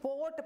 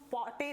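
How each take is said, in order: First: No vowel sound is heard after the t. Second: A vowel sound is heard after the t. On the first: The speaker calls it right. "पोट पढ़ेंगे" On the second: The speaker calls it wrong. "इसको हम पॉटे नहीं पढ़ेंगे"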